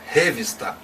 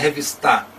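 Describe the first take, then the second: First: The stress is on the first syllable. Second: The stress is on the last syllable. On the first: "não é revista, então não pode ser a antepenúltima" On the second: "Não é revistar, não pode ser a última"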